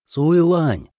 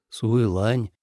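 First: Raised, higher call of a name. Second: Said in the usual way. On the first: A narrator's reading. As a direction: hail her by name. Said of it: "окликнул Ли Цзэ". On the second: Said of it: "Ли Цзэ нахмурился и позвал".

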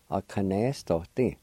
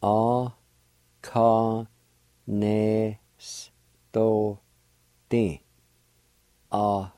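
First: A kanestoti at normal pace, a bit softer; whole word. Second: A, ka, ne, s, to, ti said one syllable at a time. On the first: Teacher giving the finished word for buttonhole. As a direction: say A kanestoti smoothly in one go. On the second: Teacher breaking buttonhole into Cherokee syllables. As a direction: spell it out in sound, one piece at a time. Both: Shown as a demonstration. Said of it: "Pronounced like this".

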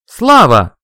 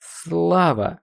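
First: Very loud, higher-pitched call; full-voice shout. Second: Higher, wavering call; trembling voice. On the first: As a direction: yell the name at the top of your voice. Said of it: "крикнул я во весь голос". (крик во весь голос) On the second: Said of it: "обратился я к прошлому себе дрожащим голосом". (дрожащим голосом) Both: A narrator's reading.

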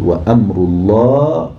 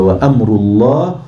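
First: وأمر الله slow, with الله drawn out to the alif; slow scanning of وأمر الله; metre scanning. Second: وأمر الله said slowly with a lifted end; measured scanning; metre scanning. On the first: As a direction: stretch the alif in الله slowly. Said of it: "لغاية الألف كده في لفظ الجلالة". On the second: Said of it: "مفاعلة ولا مفاعلة". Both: Shown as a demonstration.

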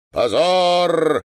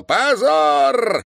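First: Loud, high, curt cry; brief outcry of condemnation; abrupt shout. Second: High, loud, long-held cry; full-lunged protracted shout of condemnation; drawn-out shout. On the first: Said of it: "отрывисто выкрикнул стоящий рядом старик-майор". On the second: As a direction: bellow it with a stretched vowel. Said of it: "протяжно закричал". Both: A narrator's reading.

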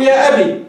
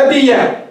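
First: أبي ending in a long still ee; أبي closed on a plain ee sound; final ya unvowelled. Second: أبي يا said "abiya", ending open on ya; أبي يا with an audible "-ya" ending; ya with fatha. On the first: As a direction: say أبي with a silent-vowelled ya, "abii". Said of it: "بإثبات الياء ساكنة". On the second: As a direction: open the final ya of أبي يا into an a vowel. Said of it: "بفتح الياء". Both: Shown as a demonstration.

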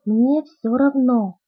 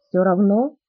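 First: "Мне всё равно" stretched slowly, falling at the end; slow admission. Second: "Всё равно" with a rising questioning tune; questioning echo. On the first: Bella confirms it to Edward, "Мне всё равно" as a slow falling statement. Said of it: "слабым голосом ответила я". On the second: Edward queries Bella's indifference, "Всё равно" as a rising question. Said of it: "Вопрос прозвучал так". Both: A narrator's reading.

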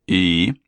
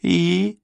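First: Drawled questioning «И?»; drawn out. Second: High, thin echo of «И?»; madman's echo. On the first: Husband staring down madman, drawn-out «И?». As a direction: stretch «И?» at normal pitch. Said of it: "протянул Полуин". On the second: Madman echoes the stare-down question, high-pitched. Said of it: "эхом откликнулся младший Боуринг". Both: A narrator's reading.

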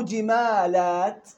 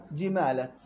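First: جمالات drawn out slowly, long aa before the t; slowly spelled-out plural reading; slow demo of جمالات. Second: جمالت with a short a before the t, no alif; the short singular form; demo of جمالت. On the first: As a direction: stretch جمالات slowly for the class. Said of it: "كأنها". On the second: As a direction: say جمالت without the long vowel. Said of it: "وكأنه". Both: Shown as a demonstration.

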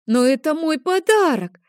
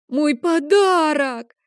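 First: Put-on much higher, louder wail of a child near tears; a son protesting his lost present; tearful boy. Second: Much higher, slow drawn-out wail; a child bursting into tears over his gift; crying boy. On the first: (детский плаксивый протест, громко) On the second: Acted. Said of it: "Лео начал плакать". (плачущий ребёнок, протяжно и громко)

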